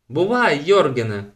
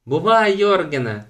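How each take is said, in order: First: Louder farewell call, high start; calling goodbye. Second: Higher, louder farewell call; calling goodbye. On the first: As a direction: call after him as he rides off. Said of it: "гукнула Елен". (гукає на прощання) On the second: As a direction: shout it after him eagerly. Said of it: "гукнула Туне". (голосно гукає на прощання) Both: A narrator's reading.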